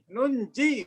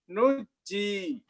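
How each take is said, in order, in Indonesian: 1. Bunyi n terdengar sebelum "j". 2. Tidak ada bunyi n yang terdengar sebelum "j". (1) "Kenapa ada nun di situ?" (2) "riwayat yang lain ada yang baca apa?"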